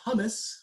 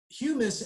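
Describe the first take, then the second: First: The first syllable sounds like 'hum'. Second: The first syllable sounds like 'hue'. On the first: The speaker calls it wrong. "they like to pronounce it hummus" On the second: The speaker calls it right. "But it is humus"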